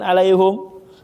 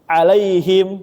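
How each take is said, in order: First: The vowel after the h is 'u'. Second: The vowel after the h is 'i'. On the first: The speaker calls it wrong. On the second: The speaker calls it right. "jadinya hi bacanya"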